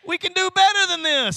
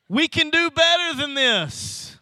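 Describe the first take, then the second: First: Higher and louder, better hit hard; built-up cry of we can do better than this; preaching louder. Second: First firm take of we can do better than this; emphatic preaching. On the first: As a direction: raise it to a preacher's call on better. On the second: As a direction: stress on better, higher. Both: Real, not acted. Preacher repeats the line, building.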